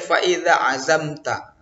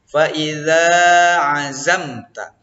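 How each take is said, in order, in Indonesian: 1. Vokal setelah 'idz' dibaca pendek. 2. Vokal setelah 'idz' dibaca panjang. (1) "Tidak boleh" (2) "Jadi panjang dia nak"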